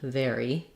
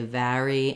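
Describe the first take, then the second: First: The first vowel sounds like the word air. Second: The first vowel sounds like the vowel in cat. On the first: "like the word air plus E" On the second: "a New York dialect is going to say vary and Larry"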